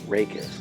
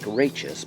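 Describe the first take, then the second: First: The word is said in its accepted pronunciation. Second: The word is sounded out as it is spelled. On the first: The speaker calls it right. "but we pronounce it rachis" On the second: The speaker calls it wrong. "It looks like rachis"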